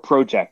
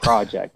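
First: The word is said with a Canadian accent. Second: The word is said with a non-Canadian accent. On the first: This is not how the speaker says it. "I don't say sorry or project" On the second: This is how the speaker says it. "I say things like project and sorry"

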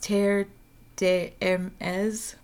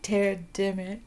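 First: The name is said at a normal pace. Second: The name is said quickly, French-style.

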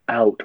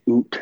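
First: The vowel sounds like the 'ow' in 'cow'. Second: The vowel sounds like the 'oo' in 'boot'. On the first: This is how others expect the word to sound. "apparently we don't say out" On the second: This is how Canadians are said to say it. "We say oot"

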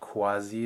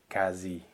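First: It starts with a K followed by W. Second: It starts with a plain K sound. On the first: The speaker calls it wrong. "So it's not quasi" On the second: The speaker calls it right. "It's really quasi, like just a K"

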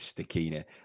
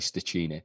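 First: The middle sound is a hard k. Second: The middle sound is a soft ch. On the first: The speaker calls it right. "The correct pronunciation is Stachini. ... C-H is Stachini. A K" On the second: The speaker calls it wrong. "A lot of people say Stachini"

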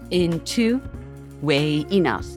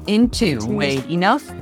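First: The command is said softly, with little force. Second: The command is said loudly, with strong force. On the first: The speaker calls it wrong. "I don't say it that way" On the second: The speaker calls it right. "it's more powerful when I'm on the water"

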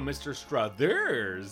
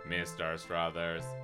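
First: The pitch rises sweetly on the last syllable. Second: The pitch stays flat and mechanical throughout. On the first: "with rising inflection on thurs is not good form. So you can't go" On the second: "the text reading software is like"

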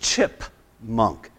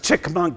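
First: The first syllable ends in a p sound. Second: The first syllable ends in a k sound. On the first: The speaker calls it right. "That's actually chipmunk" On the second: The speaker calls it wrong. "he's always telling me that a chipmunk is a chick monk. And he's like"

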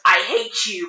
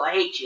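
First: The words sound angry and hurt. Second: The words sound light and playful. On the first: The reader takes it as a real insult. "If they're upset, they're gonna read that as I hate you" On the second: The reader takes it as friendly teasing. "But if they're like happy, they're gonna be like, oh, I hate you"

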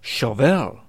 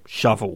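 First: The first part sounds like the word shove. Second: It sounds like the ordinary word for the tool. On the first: This is how American interviewers say the name. "as in shove a copy of Elle magazine" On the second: This is how the band members say the name. "as in the spade-like tool loved by road menders"

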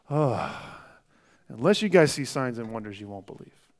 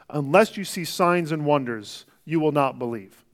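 First: It is said with a sigh, tired and frustrated. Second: It is said in a plain, neutral tone.

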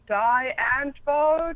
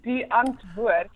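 First: The name is said with an American pronunciation. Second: The name is said with a South African pronunciation. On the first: The speaker calls it wrong. "it's so fascinating how the Americans say it" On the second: The speaker calls it right. "it's actually Die Antwoord"

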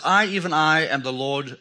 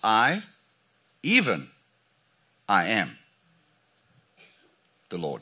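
First: It is read straight through without a pause. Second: There is a pause after "I am". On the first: It is a plain statement of who is speaking. "So it says" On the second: "I am" is used as a name of God. "I'm going to take the liberty of changing the punctuation in this verse. And I'm going to read it like this"

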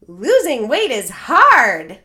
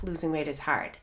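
First: It is said smiling, sounding upbeat. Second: It is said with a sigh, sounding defeated.

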